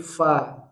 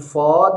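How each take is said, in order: First: The fa sound is light and thin. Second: The fa sound is heavy and thick. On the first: The speaker calls it right. "bunyi fa sempurna tipis" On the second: The speaker calls it wrong. "sering sekali fa di sini terikut tebal"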